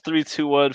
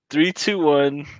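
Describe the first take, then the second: First: It is said fast. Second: It is said slowly.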